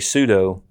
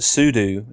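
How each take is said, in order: First: The second syllable does not rhyme with 'do'. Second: The second syllable rhymes with 'do'. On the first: "but I often say sudo, and so do many others" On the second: "Some people pronounce it sudo, and that's probably correct since it stands for super user do"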